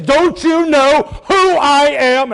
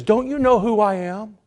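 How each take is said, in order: First: Loud, high, slow indignant rebuke; emphatic rebuke. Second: Raised-pitch rebuking question; mild rebuke. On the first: Shown as a demonstration. Gabriel rebuking Zacharias in the Greek mood, loudly emphatic. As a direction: hammer out each word as a rebuke. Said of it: "I'm putting it that in mode". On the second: Retold or imitated. Gabriel rebuking doubting Zacharias, mildly indignant. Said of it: "you can tell that this is a rebuke".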